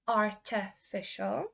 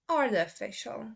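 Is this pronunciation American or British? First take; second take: British; American. First: It is said in a British accent. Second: It is said in an American accent. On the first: "first say the U K pronunciation" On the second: "then I will say the U S"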